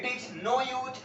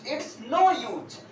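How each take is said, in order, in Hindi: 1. इसे दो पूरे शब्दों की तरह बोला जाता है। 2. इसे एक छोटे से अक्षर में बोला जाता है।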